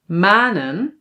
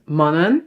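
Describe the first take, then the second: First: The first vowel is long. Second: The first vowel is short. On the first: The speaker calls it right. "We pronounce these words as ... So now it is long" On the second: The speaker calls it wrong. "it's just one letter that is short. We must pronounce this as"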